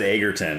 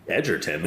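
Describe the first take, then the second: First: The middle consonant is a hard g sound. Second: The middle consonant is a soft j sound. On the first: The speaker calls it wrong. "I always said Egerton because it's got the two G's" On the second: The speaker calls it right. "it's like Edgerton"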